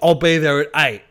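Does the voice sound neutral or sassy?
sassy. It is said with a sassy, attitude-filled tone. The sender seems to have an attitude. The speaker calls it wrong. "that's how they're reading it"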